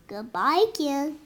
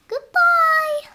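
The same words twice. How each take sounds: First: Said in the usual way. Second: High, loud goodbye call. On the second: Acted. Calling goodbye.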